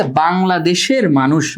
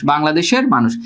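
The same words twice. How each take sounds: First: Slow quoted example. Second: Said in the usual way. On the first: Shown as a demonstration. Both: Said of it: "দেখো কি বলতেছে".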